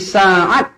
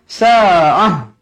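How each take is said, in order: First: The word ends with a t sound. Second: The word ends with a soft h sound. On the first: The speaker calls it wrong. "Jangan berhenti sa'at" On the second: The speaker calls it right. "Kalau berhenti mestilah berhenti dengan sa'ah"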